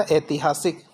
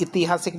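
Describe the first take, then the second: First: ऐतिहासिक started with ai, ai-ti-haa-sik; correct pronunciation. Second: ऐतिहासिक started with short i, i-ti-haa-sik; wrong pronunciation. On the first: Teacher corrects the first vowel, correct pronunciation. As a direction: open ऐतिहासिक on a wide ai. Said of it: "मात्रा बड़ी आती है". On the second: Teacher shows the wrong first vowel, wrong pronunciation. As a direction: open ऐतिहासिक on an i sound. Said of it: "ऐतिहासिक नहीं होता". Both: Shown as a demonstration.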